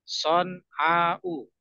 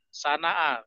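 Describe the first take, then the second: First: Emphatic s, long vowel, ending in a glottal stop. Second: Plain s and plain vowels, Indonesian-style sounds. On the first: "Pakai sod. Son. A ini pakai ain panjang. Diakhiri hamzah" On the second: "Sana'a kalau di bahasa kita ya"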